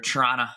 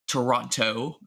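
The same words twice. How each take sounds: First: The consonants are blended together and reduced. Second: Every consonant is pronounced clearly and separately. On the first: This is how local residents say it. "We just kind of just blend all the, the consonants together" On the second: This is the careful, formal way to say it. "if we, we go full enunciation"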